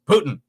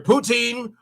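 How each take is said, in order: First: The word sounds like the name 'Putin'. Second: The word sounds like 'poo-teen'. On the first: "if you go further towards Quebec, it becomes Putin" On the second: "Poutine is either poutine"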